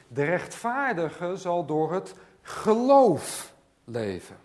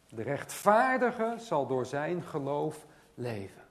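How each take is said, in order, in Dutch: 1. De klemtoon valt op het woord geloof. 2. De klemtoon valt op het woord rechtvaardige. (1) "daar ligt de nadruk op het geloof" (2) "daar ligt de nadruk op de rechtvaardige"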